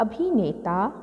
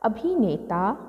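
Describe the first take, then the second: First: The vowel after 'bh' is long. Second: The same.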